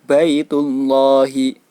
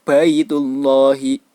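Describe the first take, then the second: The two takes are said the same way.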